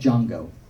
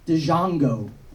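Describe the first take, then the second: First: The name starts with a plain J sound. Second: The name starts with a separate D sound.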